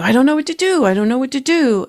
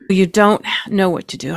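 First: Higher-pitched, lightly played worry; half-hearted imitation of someone at a loss; mock confused fretting. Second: Said in the usual way. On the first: Acts out a confused person.

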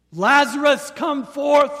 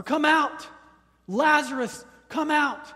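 First: Full-voiced commanding yell, much higher and louder; ringing shout of command; loud cry. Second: High, loud repeated command; booming call, each out punched; yell. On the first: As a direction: call a dead man out of the tomb. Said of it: "it's a loud cry". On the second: Retold or imitated. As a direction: shout him out of the grave. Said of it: "it was a yell".

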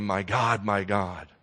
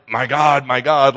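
First: Soft, tender lament. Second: Mock angry outcry to God, louder; angry cry. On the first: Preacher shows Jesus crying out tenderly, softer. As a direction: say it gently, like to a close friend. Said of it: "It's a tenderness". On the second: Preacher shows the wrong way, an angry Jesus on the cross. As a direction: hurl it up as an accusation. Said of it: "like he's angry". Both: Shown as a demonstration.

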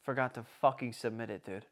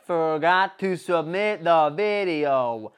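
First: Low, soft admission; quietly owning up to the blunder; deflated confession. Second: Slow, loud, stretched-out words; slowly spelling out the blunder; drawn-out exasperation. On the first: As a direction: drop the voice for the letdown. Deflated punchline of his retold mishap. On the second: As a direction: drag every word out in disbelief. Repeats the punchline for emphasis. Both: Retold or imitated.

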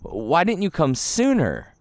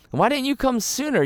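First: Said in the usual way. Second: Repeated much higher, pleading; plaintive repeat. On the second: Retold or imitated. Martha asking Jesus why he came late, pleading and high. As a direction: push the question up in pitch, hurt.

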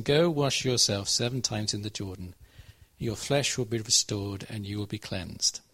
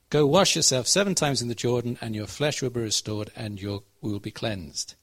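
First: Measured read with a pause after Jordan, falling to a stop on cleansed; two sentences, let it land on cleansed; read with full stops. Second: One unbroken phrase without a pause after Jordan, slowing on you will be cleansed; run on as one sentence. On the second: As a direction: carry it straight through, no stop. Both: Shown as a demonstration. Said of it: "Full stop".

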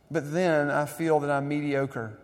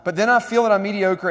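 First: Said in the usual way. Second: "But then I feel that I'm mediocre" punched out higher, louder and faster; preacher savoring a favorite quote, louder and higher; emphatic reread. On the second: Shown as a demonstration. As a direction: relish the line, hitting "I". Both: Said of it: "But I love that line".

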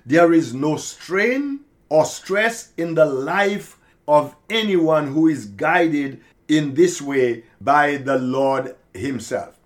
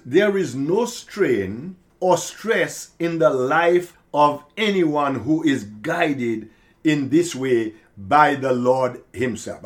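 First: Slower, louder, every word weighted; slow emphatic repeat. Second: Said in the usual way. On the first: Shown as a demonstration. Preacher repeats key line to congregation, slow and emphatic. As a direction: hammer the line home again. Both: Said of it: "I should probably repeat that".

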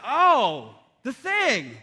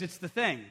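First: Loud, drawn-out "oh", then "the thing" swooping up and down; hammed-up dawning recognition; mock realization. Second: Said in the usual way. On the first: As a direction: play along with exaggerated sudden understanding. Dad plays along with sleepwalking son.

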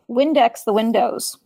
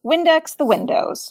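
First: Said in the usual way. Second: "Windex the windows" slow, "Windex" high with falling tune; slow emphatic repeat. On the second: Retold or imitated. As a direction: stretch out "Windex the windows" and drop at the end. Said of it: "It became part of the language".

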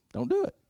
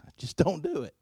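First: High squeaky repeat. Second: Said in the usual way. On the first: Shown as a demonstration. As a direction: jump way higher for the echo. Repeats line, second time squeaked high.

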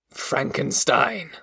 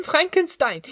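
First: Brooding monster. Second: "Frankenstein!" shrieked very high with a falling end; boy proudly crying "Frankenstein!" in a high child's voice; terrified child. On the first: Acted. Monster hears his enemy's name. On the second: A narrator's reading. Boy naming his father to scare the monster, shrieked very high. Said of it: "he cried".

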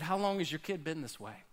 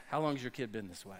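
First: Soft, lower and gentle, full of sympathy; soft caring question to a worried parent; sympathetic Jesus. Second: Quick, low and soft, laughing through it; fast amused aside, laughing; laughing quip. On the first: Acted. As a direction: ask it tenderly, like you feel the parent's pain. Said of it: "that was Jesus having sympathy for you". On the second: Pretend. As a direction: toss it off with a chuckle. Jokey modern Jesus quip.

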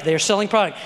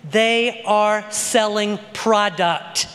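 First: Said in the usual way. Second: Slow, each word set apart; emphatic declaration. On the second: Real, not acted. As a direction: spell it out word by word, slowly. Slows a claim for emphasis.

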